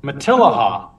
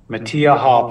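First: Matilaha with the L pronounced; repeating correct pronunciation. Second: Matiaha said with no L sound; mispronounced name. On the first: Shown as a demonstration. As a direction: echo "Matilaha" back, sounding the L. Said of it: "pronounce it". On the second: Real, not acted. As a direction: say "Matiaha" Spanish-style, like tortilla, with silent L's. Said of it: "I might be saying it wrong".

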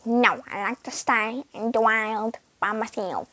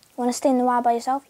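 First: Lower, odd voice for the pet cat; weird cat voice. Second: Said in the usual way. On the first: Pretend. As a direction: voice the stubborn cat strangely. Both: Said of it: "Tofu has, like, a weird voice".

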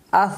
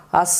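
First: আস closed on a soft th at the tongue tip; soft th ending. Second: আস closed on a long, sharp hissing s; hissed s ending. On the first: Teacher models the soft tongue-tip letter, আস ending in th. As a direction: end আস gently with a lisped th. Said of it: "নরম করে উচ্চারণ হবে". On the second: Teacher shows the faulty pronunciation, আস ending in a hissed s. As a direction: end আস with a whistling sin sound. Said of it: "তাহলে উচ্চারণ হবে না". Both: Shown as a demonstration.

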